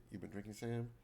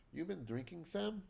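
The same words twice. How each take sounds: First: Said in the usual way. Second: Higher-pitched question in a shaky attempt at Russian; amateur Russian accent, pitch climbing at the end; bad Russian accent. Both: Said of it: "I apologize for my bad Russian accent".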